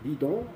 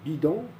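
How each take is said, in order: The two takes are said the same way.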